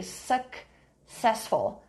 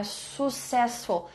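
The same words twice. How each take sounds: First: Slow successful with a clear k-s, suk-SES-ful; successful said slowly with the ks cluster; correct pronunciation. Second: Successful said soo-cessful with no k sound; successful without the ks cluster; wrong pronunciation. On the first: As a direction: stretch out successful, pushing the ks. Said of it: "Tem que fazer uma forcinha aqui". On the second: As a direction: say successful as soo-SES-ful, dropping the k. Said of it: "Não seria assim, não é successful". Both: Shown as a demonstration.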